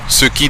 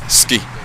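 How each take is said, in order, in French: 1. Les deux syllabes sont prononcées pleinement avec leurs voyelles. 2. Une voyelle tombe et les syllabes se fondent. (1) "ce qui devient" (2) "devient ce qui"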